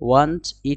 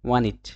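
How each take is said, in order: First: The t at the end of want is pronounced. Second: The t at the end of want is dropped.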